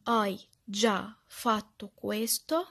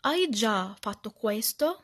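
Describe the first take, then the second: First: Very slow, each word set apart; word-by-word repeating. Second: Loud, slow practice repetition; repeating aloud. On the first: Teacher drilling the phrase for learners, slow word-by-word repetition. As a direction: drill it slowly, pausing between words. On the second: Teacher modelling how to repeat after the lesson, loud slow repetition. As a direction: repeat the Italian phrase slowly and firmly. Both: Shown as a demonstration. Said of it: "اجي انا بقى اردد".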